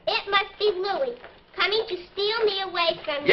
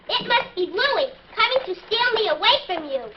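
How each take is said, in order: First: It is said without much excitement. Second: It is said with excitement.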